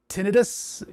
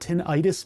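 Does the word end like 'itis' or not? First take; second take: not itis; itis. First: The ending does not sound like itis. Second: The ending sounds like itis. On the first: The speaker calls it right. "tinnitus is the actual thing" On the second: The speaker calls it wrong. "It's not tinnitus because an itis is an inflammation"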